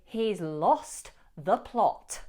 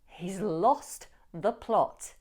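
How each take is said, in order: First: It is said emphatically with clear T sounds. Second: It is said emphatically with clear T sounds.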